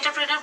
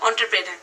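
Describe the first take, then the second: First: The first syllable starts with an 'en' sound. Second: The first syllable starts with an 'on' sound. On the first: This is how people here usually say it. "আমরা যেহেতু এন্টারপ্রেনার বলতে অভ্যস্ত" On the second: This is how it is said abroad. "বাইরের কান্ট্রিতে যেটাকে actual যেটার উচ্চারণ"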